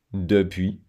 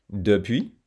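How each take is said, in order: Both takes have the same delivery.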